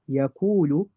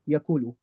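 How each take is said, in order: First: The long vowel is held for its full length. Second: The long vowel is cut short like a fatha. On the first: The speaker calls it right. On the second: The speaker calls it wrong.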